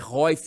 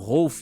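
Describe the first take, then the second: First: The name has an 'ee' sound before the f. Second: The name has an 'l' sound before the f. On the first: The speaker calls it right. "mas é Roif" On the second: The speaker calls it wrong. "eu falo Rolf"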